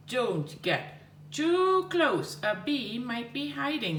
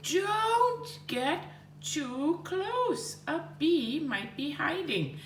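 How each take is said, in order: First: 1 mild shout. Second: 1 mock shout. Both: Shown as a demonstration. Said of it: "Bob shouted".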